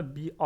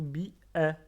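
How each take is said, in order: First: BI-A ending in open French "ah"; wrong open A. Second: BI-A pronounced "bi-è"; correct "è" sound. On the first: Learners shown the mistake, BI-A with open "ah". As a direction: say BI-A with a wide "ah" at the end. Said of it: "On dit pas bi-A". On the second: Learners shown the Arabic alif, BI-A as "bi-è". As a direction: say BI-A with the A fronted to "è". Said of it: "E, pas le son A". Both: Shown as a demonstration.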